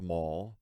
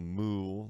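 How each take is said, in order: First: The vowel sounds like the one in full. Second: The vowel sounds like the one in fool. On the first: The speaker calls it right. "my last name is pronounced Mall" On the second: The speaker calls it wrong. "not Moo, like some people try to pronounce it"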